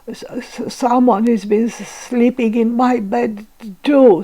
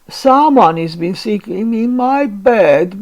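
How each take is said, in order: First: It is stuttered in Baby Bear's voice. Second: It is wailed in Mama Bear's voice.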